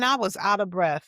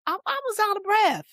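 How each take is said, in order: First: Said in the usual way. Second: High-pitched exclaimed confession; high, exasperated self-excuse; emphatic admission. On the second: Real, not acted. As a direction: blurt it out high, almost squeaking. Emphatic admission, then repeated more plainly.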